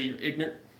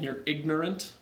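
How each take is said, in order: First: It is said in a rural Utah accent. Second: It is said in a standard accent.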